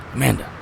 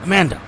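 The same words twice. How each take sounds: First: Calling out. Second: Higher, louder shout of her name; urgent call. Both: Acted. Calling out after crash.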